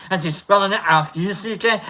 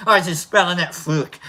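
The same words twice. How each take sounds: First: "F U C K" said letter by letter; spelled out. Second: "fuck" said as "fook"; Scottish pronunciation. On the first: Doubter asking about the spelling, "F U C K" letter by letter. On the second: Doubter asking about the spelling, "fuck" pronounced "fook". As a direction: give "fuck" a Scottish oo vowel. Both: Shown as a demonstration. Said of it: "how's he spelling it?".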